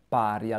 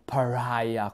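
First: The word has an Italian pronunciation. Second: The word has an English pronunciation. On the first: "Lo pronuncio in italiano" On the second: "In inglese lo pronunciano pariah"

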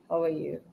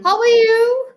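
First: The words are muttered, low and quiet. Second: The words are nearly shouted, very loud. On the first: The speaker is angry and not happy to meet the person. "He was very angry, so he just muttered" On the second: The listener is somewhere far away. "In the beginning, I nearly screamed out"

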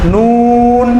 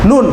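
First: The vowel is drawn out and lengthened. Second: The vowel is short and said quickly. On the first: The speaker calls it right. "সঠিক উচ্চারণটা হচ্ছে" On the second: The speaker calls it wrong. "তাড়াতাড়ি বলে ফেলি"

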